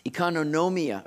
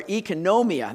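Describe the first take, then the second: First: Economia said ih-KAH-no-NO-mee-uh, stumbling; first try at economia with an extra syllable; Greek word economia. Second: Economia said ee-ko-NO-mee-uh, stress on NO; economia, careful Greek ee-ko-NO-mee-uh; Greek pronunciation. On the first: Pastor attempts the Greek word, stumbling. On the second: Pastor corrects himself to the congregation, careful. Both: Shown as a demonstration. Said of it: "That's how you say it".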